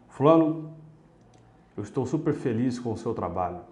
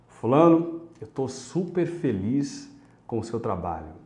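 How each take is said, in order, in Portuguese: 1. A fala soa monótona e sem entusiasmo. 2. A fala soa calorosa e entusiasmada. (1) "A sua palavra falou uma coisa, mas a sua expressão falou outra" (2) "A expressão foi congruente com a palavra"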